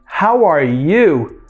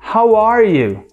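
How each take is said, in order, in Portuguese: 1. A palavra you recebe acentuação forte. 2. A palavra you não recebe nenhuma acentuação especial.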